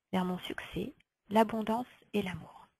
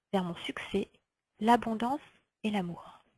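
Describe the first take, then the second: No difference in how they are said.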